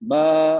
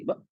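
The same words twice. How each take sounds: First: बा held long and loud, voice flowing out; open vocal cords. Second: ब clipped by a glottal stop; cut-off vowel. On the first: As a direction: keep the throat fully open through बा. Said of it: "vocal cord पूरी खुली हुई है". (बा में आवाज बाहर आती रहे) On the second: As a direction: close the vocal cords so ब ends at once. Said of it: "आवाज बाहर ही नहीं आ रही". (ब के बाद आवाज बंद) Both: Shown as a demonstration.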